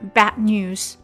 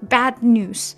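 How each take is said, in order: First: The d in bad is cut short. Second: The d in bad is fully pronounced. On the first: The speaker calls it right. "第一个音节结尾的时候就会比较短了" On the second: The speaker calls it wrong. "如果你要完全读出来的话，会很赶"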